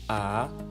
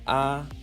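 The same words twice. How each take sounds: First: The pitch rises from middle to high. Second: The pitch stays high and level.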